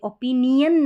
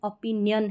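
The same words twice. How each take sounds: First: The ending is said as separate 'nee-un' syllables. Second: The ending is said as one 'yun' syllable. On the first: The speaker calls it wrong. "ओपिनियन नहीं बोलेंगे" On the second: The speaker calls it right. "इसका सही correct उच्चारण ओपिनियन है, ओपिनियन यन करके हो रहा है"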